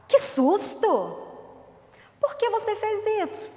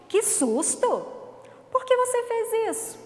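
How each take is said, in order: First: Startled exclamation. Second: Loud "Que susto!" then a much higher "Por que você fez isso?"; startled exclamation, repeated. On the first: Teacher showing the class a startled question, loud and high. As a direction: act out being startled, then demand why. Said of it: "Vira a entonação de voz?". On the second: Teacher leading the class in a repeat, startled and high. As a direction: say it again for the class to copy. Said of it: "Repete comigo". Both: Shown as a demonstration.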